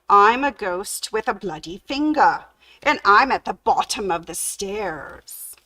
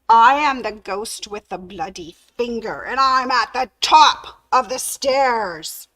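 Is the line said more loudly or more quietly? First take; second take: more quietly; more loudly. First: It is said fairly quietly. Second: It is said more loudly.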